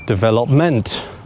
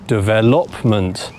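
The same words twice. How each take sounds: First: The stress is on the fourth syllable. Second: The stress is on the third syllable. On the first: "put it on the fourth syllable" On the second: "put it on the third syllable"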